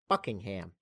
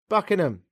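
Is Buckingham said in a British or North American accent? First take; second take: North American; British. First: It is said in a North American accent. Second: It is said quickly in a British accent. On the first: "I love the way Canadians and Americans say Buckingham" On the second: "Just get through it, sharpish"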